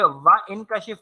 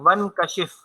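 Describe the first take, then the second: First: A glottal stop separates wa from the verb. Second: Wa runs straight into the verb without a stop. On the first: The speaker calls it wrong. "नहीं होगा" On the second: The speaker calls it right. "इस पे हरकत कोई नहीं होगी, हम आगे ही मिलाएँगे"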